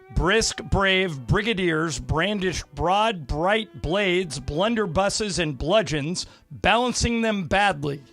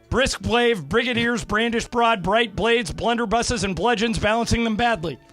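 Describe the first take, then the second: First: It is said at a normal speed. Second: It is said very fast.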